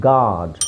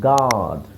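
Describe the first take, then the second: Both takes have the same delivery.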